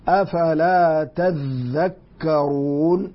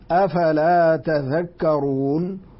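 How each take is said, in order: First: The dh sound in the last word is doubled. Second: The dh sound in the last word is single. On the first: "كانت هناك تاء ثانية ولكنها أدغمت في الذال" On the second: "أصلها تتذكرون وحذفت إحدى التائين تخفيفا"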